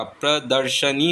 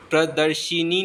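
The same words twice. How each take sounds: First: प्रदर्शनी with "sha" before "ni"; correct vowel. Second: प्रदर्शिनी with "shi" before "ni"; wrong vowel. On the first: Teacher giving the correction, प्रदर्शनी with "sha". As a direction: keep short a after sh in प्रदर्शनी. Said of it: "प्रदर्शनी होता है". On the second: Teacher showing the mistake, प्रदर्शिनी with "shi". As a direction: put an i after the sh in प्रदर्शिनी. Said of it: "प्रदर्शिनी नहीं होता". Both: Shown as a demonstration.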